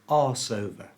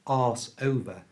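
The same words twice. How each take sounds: First: The S runs straight into over. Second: The S is kept apart from over. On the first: The speaker calls it right. "We also join the S sound at the end of arse into the O of over" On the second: The speaker calls it wrong. "So it's not arse over"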